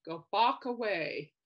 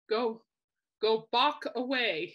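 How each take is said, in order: First: Slow, deliberate "Go Bach away"; slow punchline. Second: Drawn-out slow "Go Bach away"; slow punchline. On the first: Repeating Mickey's pun for viewers, slow. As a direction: lean on "Bach" and drag it out. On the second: Quoting Mickey's pun to the viewers, slow and drawn out. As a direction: stretch the pun slowly, "Bach" landing. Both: Retold or imitated. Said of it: "He goes".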